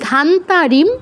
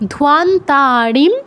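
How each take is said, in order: First: The first syllable has no w sound. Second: The first syllable has a w sound. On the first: The speaker calls it wrong. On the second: The speaker calls it right.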